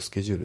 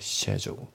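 First: The word begins with an sk sound. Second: The word begins with an sh sound. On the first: "日本語だとスケジュールって言いたくなりますけど" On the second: "これイギリス英語とねシェジュールなんですよね"

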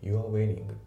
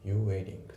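First: The word 'are' is fully pronounced. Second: The word 'are' is reduced and nearly silent. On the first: "You are wearing じゃなくて" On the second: "You're wearing で"

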